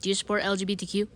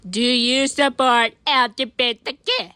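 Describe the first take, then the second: First: Plain quick question. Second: Louder, slowed-down question; slow loud repeat. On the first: First quick asking. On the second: Asking Talking Ben again, slower and louder. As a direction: spell it out loudly so he hears. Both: Acted.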